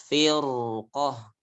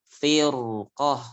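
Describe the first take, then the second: The two takes are said the same way.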